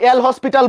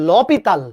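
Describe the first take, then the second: First: Said as 'el hospital', with an s sound. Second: Said as 'lopital', with no separate 'el'. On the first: "কেউ এল হসপিটাল বলে" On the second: "আসল উচ্চারণ হচ্ছে লপিতাল"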